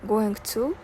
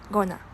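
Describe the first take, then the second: First: Both words are said fully and separately. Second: The words are reduced and run together.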